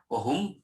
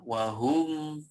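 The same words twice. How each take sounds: First: The final m sound is cut very short. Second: The final m sound has a medium length. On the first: The speaker calls it wrong. "tidak boleh wahum" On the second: The speaker calls it right.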